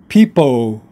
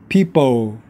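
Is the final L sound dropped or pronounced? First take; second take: dropped; dropped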